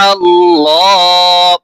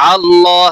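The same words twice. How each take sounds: First: আল্লাহ said slow and drawn out, with a thick, heavy lam; heavy lam Allah. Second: Said in the usual way. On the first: Shown as a demonstration. Teacher shows students the heavy lam in আল্লাহ. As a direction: stretch আল্লাহ and darken the lam. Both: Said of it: "লাম মোটা হবে".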